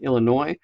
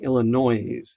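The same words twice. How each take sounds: First: The word is said with no extra sound. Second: The word is said with an extra sound added. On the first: The speaker calls it right. "instead of saying Illinois" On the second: The speaker calls it wrong. "saying Illinois"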